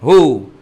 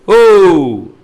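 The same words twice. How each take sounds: First: It is said more softly. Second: It is said more loudly.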